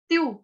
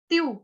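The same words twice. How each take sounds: Both takes have the same delivery.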